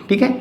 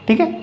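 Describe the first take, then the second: Both takes have the same delivery.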